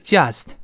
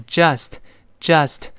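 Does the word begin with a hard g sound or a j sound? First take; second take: hard g; j sound. First: The word begins with a hard g sound. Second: The word begins with a j sound. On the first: The speaker calls it wrong. "这个j 还是很多人读成g" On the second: The speaker calls it right. "是just"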